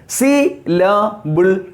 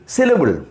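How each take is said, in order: First: SYLLABLE slowly divided as "si, la, bul". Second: Said in the usual way. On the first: Shown as a demonstration. Teacher illustrating what a syllable is, SYLLABLE in three slow, separate parts. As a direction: give each part of SYLLABLE its own beat. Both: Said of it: "That is what I said".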